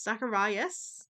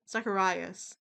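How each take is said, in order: First: "Zacharias" slow, rising at the end; questioning. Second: Said in the usual way. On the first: Real, not acted. Checking the character's name, "Zacharias" said as a question. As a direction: stretch "Zacharias" into an unsure question.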